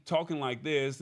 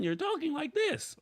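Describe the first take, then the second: First: Said in the usual way. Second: Sudden jump into a high squeaky register; changed voice. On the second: Shown as a demonstration. Host showing viewers what inconsistent recording sounds like, sudden high voice. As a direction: pitch it way up all of a sudden. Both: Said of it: "at a consistent volume".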